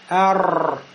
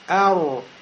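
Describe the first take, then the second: First: The r is rolled with many vibrations. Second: Rounded lips give the r a u-like ending. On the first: "А если будет много колебаний" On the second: "я губы сейчас пошевелил, сделал кольцо, у меня сукун стал похож на домму"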